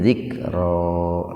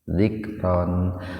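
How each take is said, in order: First: The word ends with a vowel held two beats. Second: The word ends with a short vowel and n. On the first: "panjang dua ketukan" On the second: "umumnya dibaca zikron"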